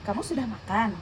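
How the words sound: It is said with question intonation. The speaker asks whether the listener has eaten. "Ini adalah kalimat pertanyaan"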